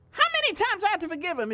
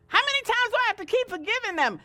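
First: Fast, louder fed-up repeat; exasperated. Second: Loud, higher and fast complaint; fed up with forgiving; exasperated Peter. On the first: Preacher echoing Peter's complaint, fed up and fast. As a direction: rattle it off like you've had enough. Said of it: "'cause I'm going on eight right now". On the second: Peter asking Jesus, loud and exasperated. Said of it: "Peter got so upset". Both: Retold or imitated.

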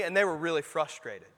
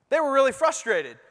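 First: Said in the usual way. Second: "really" punched, higher and louder; preacher repeats it with "really" hit high and loud; stress on really. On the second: Shown as a demonstration. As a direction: lean hard on "really" in "They were really frustrated.".

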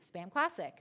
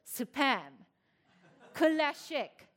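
First: Said in the usual way. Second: "Spam" as "supɛ" and "Classic." as "kʰulɛʃɪk", higher and louder; Korean pronunciation. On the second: Shown as a demonstration. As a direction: say "Spam Classic." the Korean way, each consonant followed by a vowel. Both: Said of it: "but in Korean it says".

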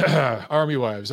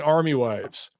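First: "Army Wives" drawn out slowly, like a title card; slow announcement. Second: Said in the usual way. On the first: Shown as a demonstration. Host repeats the show name Army Wives, slow and announced.

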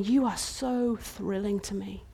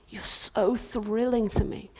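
First: Much softer, tender voice; soft tender declaration. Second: Slow tender whisper; a hushed, tender whisper. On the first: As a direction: speak it gently to her. King speaks tenderly to bride. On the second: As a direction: whisper it lovingly. King's repeat whispered. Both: Acted.

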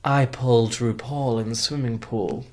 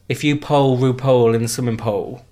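First: Slow, careful, three separate vowels in pulled, RuPaul, pool; proper elocution. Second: Pull, RuPaul and pool all rhyming with "pole"; all one vowel. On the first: Shown as a demonstration. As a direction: enunciate pulled, RuPaul and pool each differently. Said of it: "How would you say it?". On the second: Retold or imitated. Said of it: "It's all the same word".

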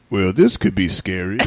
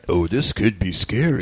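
First: Low, slow, laughing deadpan; deadpan guy in the room. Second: Low, slow, deadpan; deadpan guy callback. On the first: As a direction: drawl it out low and slow, amused. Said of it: "he goes". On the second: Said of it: "The dude comes out of the shower". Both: Retold or imitated.

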